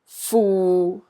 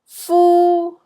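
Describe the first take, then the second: First: The syllable is said in Cantonese tone six. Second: The syllable is said in Cantonese tone one. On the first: "A is tone six" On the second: "C is tone one"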